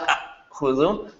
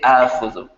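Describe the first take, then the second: First: The first vowel is short, with a glottal catch. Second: The first vowel is drawn out long. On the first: The speaker calls it wrong. "weird that sounds?" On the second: The speaker calls it right. "you make it a long vowel, madda"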